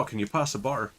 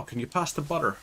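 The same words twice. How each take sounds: First: "butter" with the middle T dropped; local dropped T. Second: "butter" with its middle T fully sounded; clearly pronounced T. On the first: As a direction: say "butter" the hometown way, swallowing the T. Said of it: "We will say, it's like". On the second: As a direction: say "butter" carefully, with a proper T. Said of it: "where we don't say". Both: Shown as a demonstration.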